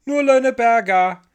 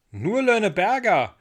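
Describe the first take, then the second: First: Put-on little girl yelling down; high, loud child's call; shouting back. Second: Put-on boy calling up, querying; high, raised-voice echo; called echo question. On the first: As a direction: holler it from far up. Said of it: "schrie die kleine Ida zurück". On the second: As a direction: repeat it back as a loud question. Michel calls back up, echoing Ida. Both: A narrator's reading.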